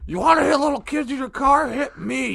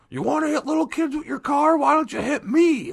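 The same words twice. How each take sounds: First: High mock yell at the driver; retold screaming. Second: High mock yell of an outraged bystander; retold screaming. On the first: Bystander screaming again at the driver, high mock yell. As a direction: belt it out high, outraged. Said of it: "he's screaming at me". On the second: Angry bystander yelling at the driver, high mock shout. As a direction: shout it up high like a furious stranger. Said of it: "gets out of his car and starts screaming".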